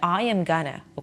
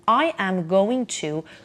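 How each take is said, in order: First: Going to is reduced to a single gonna. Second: Going to is said fully as two words.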